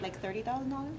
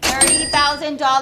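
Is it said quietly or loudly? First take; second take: quietly; loudly. First: It is said quietly and hesitantly. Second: It is said loudly and confidently.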